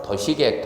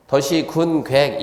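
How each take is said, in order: First: 도시계획 read as one term, 군 left out; 도시계획 as a single word with a slight rise; right reading. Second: 도시 군 계획 read as three words, 군 included; the reading students should not use, with 군 said; wrong reading. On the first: Lecturer giving students the correct reading 도시계획, 군 dropped. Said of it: "어떻게 읽으라고요?". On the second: Lecturer showing students the wrong way to read 도시 군 계획. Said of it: "이렇게 읽으면 안 된다니까". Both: Shown as a demonstration.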